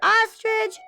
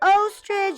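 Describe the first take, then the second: First: The word begins with an open ah sound. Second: The word begins with a rounded oh sound. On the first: The speaker calls it right. "Ah for ostrich" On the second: The speaker calls it wrong. "O for ostrich"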